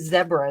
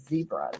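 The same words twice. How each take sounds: First: The word is said with an English pronunciation. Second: The word is said with an American pronunciation. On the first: "the English accent... even if they say zebra" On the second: "instead of zebra"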